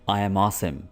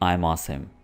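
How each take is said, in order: First: 'I am' is said as two full words. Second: 'I am' is contracted into one syllable. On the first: "आई एम" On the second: "थोड़ा fluently बोलने के लिए आप इसकी contraction use कीजिए"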